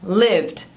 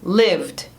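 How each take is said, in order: First: The word is said with one syllable. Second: The same.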